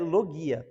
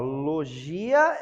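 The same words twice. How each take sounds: First: The g is hard, as in go. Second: The g is soft, like a zh sound. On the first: It is the learned Greek-style pronunciation. "a pronúncia mais sofisticada para quem estuda" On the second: It is the Portuguese-style reading of the word. "uma forma portuguesada"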